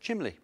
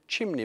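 First: The middle consonant is an l sound. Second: The middle consonant is an n sound. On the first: "many people prefer to say chimley" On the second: "put chimney back"

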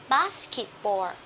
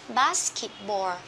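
No difference in how they are said.

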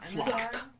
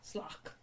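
First: The final k sound is hard. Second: The final k sound is soft.

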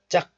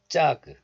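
First: The final consonant is closed, not released. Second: The final consonant is fully released. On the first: The speaker calls it right. "just 짝. Close the syllable" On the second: The speaker calls it wrong. "this is not 짝"

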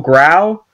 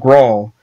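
First: The vowel sounds like the 'ow' in 'owl'. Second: The vowel sounds like the 'aw' in 'awl'. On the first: "G-R-O-W-L growl" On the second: "G-R-A-W-L growl"

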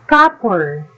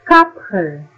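First: The p is said without a puff of air. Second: The p is said with a puff of air. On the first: The speaker calls it right. "beginning of unstressed syllable is pronounced with an aspirated allophone" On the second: The speaker calls it wrong. "not copper"

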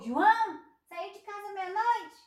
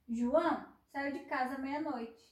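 First: The voice rises at the end, as a question. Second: The voice falls at the end, as a statement.

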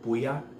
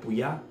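First: The stress is on the first syllable. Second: The stress is on the second syllable. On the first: The speaker calls it right. "emphasis on the U" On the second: The speaker calls it wrong. "not Puya"

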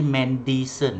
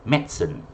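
First: The middle 'di' syllable is pronounced. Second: The middle 'di' syllable is dropped. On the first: The speaker calls it wrong. "We don't say medicine eh" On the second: The speaker calls it right. "D tak ada"

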